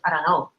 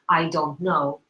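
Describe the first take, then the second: First: The words are heavily reduced and run together. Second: Each word is pronounced fully and clearly. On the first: The speaker calls it right. "We say, ... You actually reduce it um, uh, quite substantially" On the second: The speaker calls it wrong. "We don't say in English"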